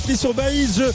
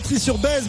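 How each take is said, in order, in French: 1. La dernière partie fait deux syllabes, 'Ba-ïse'. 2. La dernière partie ne fait qu'une syllabe, 'Besse'. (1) "mais Trie-sur-Baïse" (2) "on ne dit pas Trie-sur-Besse"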